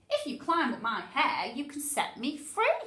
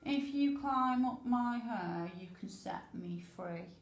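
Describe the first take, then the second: First: It is read dramatically, with lively expression. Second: It is read flatly, without expression. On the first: The speaker calls it right. "does my voice need to be a bit more dramatic?" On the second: The speaker calls it wrong. "Why am I not using expression?"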